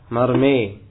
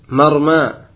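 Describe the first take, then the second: First: The final vowel is tilted toward 'e'. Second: The final vowel is a plain open 'a'.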